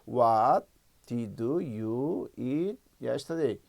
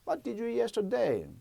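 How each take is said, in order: First: It is spoken slowly, with halting breaks. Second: It is spoken quickly, with linked words. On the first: The speaker is still assembling the sentence. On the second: The sentence has been practised until it comes easily.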